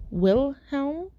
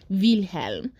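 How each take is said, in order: First: "Wilhelm" with an English W, higher; without the accent. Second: German "Wilhelm", starting with a V sound; put-on German accent. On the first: Storyteller testing the normal way, "Wilhelm" with plain English W. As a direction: say "Wilhelm" as in English, with a questioning lift. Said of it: "sounds normal without the accent". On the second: Storyteller going back to the German accent on "Wilhelm". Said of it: "I'm putting on the accent". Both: Shown as a demonstration.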